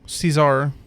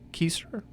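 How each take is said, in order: First: The word begins with a soft S sound. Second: The word begins with a hard K sound. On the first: This is the modern English way to say it. "The English pronunciation Caesar is closer to seizure" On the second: This is how medieval Latin speakers said it. "pronounced with a hard K"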